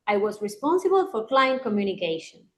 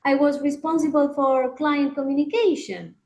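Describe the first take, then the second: First: "communication" bajando al final, afirmando; falling intonation. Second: "communication" subiendo al final, como pregunta; rising intonation. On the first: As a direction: cierra la idea hacia abajo con seguridad. (entonación descendente, categórica) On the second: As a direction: suena insegura, con la cola arriba. (entonación ascendente de duda) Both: Shown as a demonstration. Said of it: "Suena un poquito diferente".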